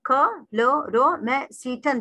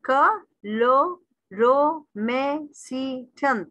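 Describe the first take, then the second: First: क लो रो में सी टन in separate but shorter beats; measured, evenly split क लो रो में सी टन; syllable by syllable, quicker. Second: क लो रो में सी टन, very slow with a gap after each; one drawn-out beat at a time in क लो रो में सी टन; syllable by syllable. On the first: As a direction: slowly count off each piece of क लो रो में सी टन. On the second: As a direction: stretch and separate every piece of क लो रो में सी टन. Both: Shown as a demonstration. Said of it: "जितने आप लफ्ज आपका रुकेगा".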